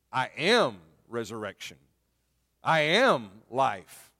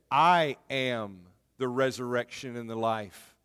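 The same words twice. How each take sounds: First: "am" hit hard, very slow and deliberate; "I am life" drawn out slowly, "am" stressed. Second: Said in the usual way. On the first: Acted. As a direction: punch "am" in each sentence. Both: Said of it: "he is emphasizing the words, "I am".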